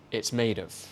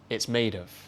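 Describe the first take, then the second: Both takes have the same delivery.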